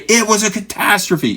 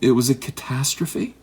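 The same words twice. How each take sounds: First: It is said bluntly and harshly. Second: It is said softly and gently.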